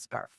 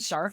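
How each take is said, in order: First: The name is said with an anglicized pronunciation. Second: The name is said with a German pronunciation. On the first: This is the form adopted after emigrating. "when we came to Canada, they changed it to Scarf" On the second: This is the original form of the name. "in German that's the right way to say it"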